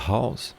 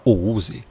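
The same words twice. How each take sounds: First: "house" in one syllable, as /haws/; softly given correct "house"; correct English pronunciation. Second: "o use", house sounded out in Portuguese letters; wrong-way demo of "o use"; read as spelled. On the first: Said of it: "você fala". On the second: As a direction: say "o use" in separate vowels, as written. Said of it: "Você não fala". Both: Shown as a demonstration.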